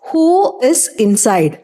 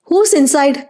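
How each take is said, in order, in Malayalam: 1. Who-യും is-ഉം വേറെ വേറെ വാക്കുകളായി പറയുന്നു. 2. Who-യും is-ഉം ഒരു അക്ഷരമായി ചേരുന്നു.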